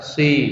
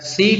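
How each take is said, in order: First: The s is pronounced thick and heavy. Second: The s is pronounced thin and light. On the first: The speaker calls it wrong. "kadang orang baca sin tapi seperti shod karena tebal" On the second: The speaker calls it right. "Seharusnya tipis"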